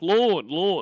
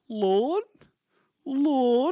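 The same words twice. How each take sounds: First: The name is called out urgently, like exclaiming. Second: The name is asked with a questioning rise.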